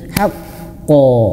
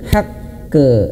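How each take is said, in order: First: The bounced qaf sounds thick, like an o. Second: The bounced qaf sounds thin, like an e. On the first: The speaker calls it right. "Dan tebalkanlah ketika dia memantul" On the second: The speaker calls it wrong. "pantulannya bukan tebal"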